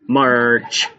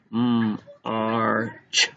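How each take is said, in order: First: Said in the usual way. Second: M hummed alone, then Arch; tapped-out sounds. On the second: Shown as a demonstration. Teacher tapping out march, segmented. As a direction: split march into M, pause, Arch. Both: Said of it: "Tap that out again".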